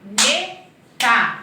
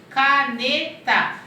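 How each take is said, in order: First: Syllable by syllable. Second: "caneta" slow and louder, split into three beats; syllable by syllable. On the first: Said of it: "O K fica junto". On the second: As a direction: stretch "caneta" out for children. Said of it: "eu separei em três". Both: Shown as a demonstration.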